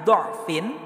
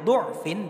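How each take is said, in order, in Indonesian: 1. Vokal pertama adalah bunyi 'a' terbuka. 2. Vokal pertama adalah bunyi 'u' bulat. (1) "yang terbaca fathah huruf dhodnya" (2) "yang terbaca dhammah menjadi du'fin"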